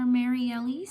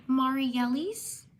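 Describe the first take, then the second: First: Mariellis opening like "Mary", rising at the end; alternative pronunciation. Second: Mariellis opening with "MAR-ee", rising at the end; first pronunciation guess. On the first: Streamer unsure of a viewer's name, offering Mariellis as "Mary"-ellis. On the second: Streamer giving a shout out, trying Mariellis as "MAR-ee". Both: Real, not acted. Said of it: "Or Mariellis".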